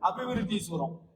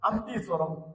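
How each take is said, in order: First: The name is said with all its syllables. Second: The name is squeezed into fewer syllables. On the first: This is the standard form of the name. "நீங்க எல்லாம் நல்லா சொல்றீங்க" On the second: This is how the locals say the name. "அம்தீஸ்வரம் அப்படின்னு சொன்னாதான் அங்க இருக்கிறவங்களுக்கு அது தெரிய வருது"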